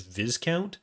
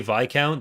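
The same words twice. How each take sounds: First: It is said with the American pronunciation. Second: It is said with the British pronunciation. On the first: The speaker calls it wrong. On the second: The speaker calls it right.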